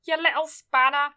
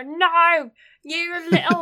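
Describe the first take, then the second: First: Lightly voiced scolding mum; a hint of a telling-off mum; impression of mum. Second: Loud, higher mock-angry mum; impression of mum. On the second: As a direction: yell like a scolding mum. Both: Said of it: "That's my impression of my mum".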